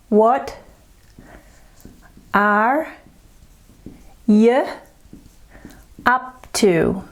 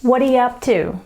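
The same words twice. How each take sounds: First: Word by word. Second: "What are you up to?" with "are you" squashed to schwas; quick, linked "What are you up to?"; run together. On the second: Teacher modelling the linked phrase for learners. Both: Shown as a demonstration. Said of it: "Let's look at this one here".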